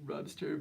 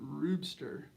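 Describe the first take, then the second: First: The name begins with a 'rub' sound. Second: The name begins with a 'roop' sound. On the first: "there is like a little bit of uh, rubbing on the cue, so it technically could be Rubster" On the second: "I just want to pronounce it Roopster"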